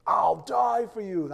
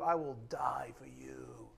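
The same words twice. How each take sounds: First: Loud, high, drawn-out declaration; booming mock-heroic vow, slowly stretched; bold boast. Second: Slow, whispery pledge; solemn acted promise, trailing into breath; hushed vow. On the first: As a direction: proclaim it like a grand, overblown oath. Peter's boast acted out loudly. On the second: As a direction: let it sink to a drawn-out near-whisper. Peter's vow repeated for effect.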